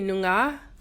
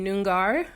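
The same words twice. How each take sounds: First: It is said with the local Australian pronunciation. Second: It is said with an American pronunciation.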